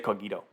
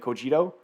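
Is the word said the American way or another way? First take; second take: other; American. First: It is pronounced unlike the common American way. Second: It is pronounced the way many Americans say it. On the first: "but I say Cogito" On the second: "lots of Americans say Cogito"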